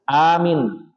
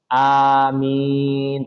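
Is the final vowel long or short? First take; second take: short; long. First: The final vowel is cut short. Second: Both vowels are drawn out long. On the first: A command to secure or to believe. The speaker calls it wrong. "Minnya pendek" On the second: A plea asking God to grant it. The speaker calls it right. "Yang benar adalah a dan minnya panjang"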